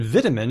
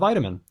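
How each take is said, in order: First: The first vowel is short and lax. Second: The first vowel is long and tense. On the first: This is the British form. "in British English, it's more likely to lax" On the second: This is the American form. "American English just keeps the tense versions"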